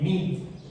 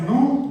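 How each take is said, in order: First: The vowel is a plain ee sound. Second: The vowel is a plain oo sound. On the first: "ni Ni" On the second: "No es Nu"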